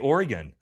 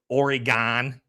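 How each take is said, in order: First: Oregon is pronounced the way locals say it. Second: Oregon is pronounced the way outsiders say it. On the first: "I'm from Oregon" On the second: "You say Oregon"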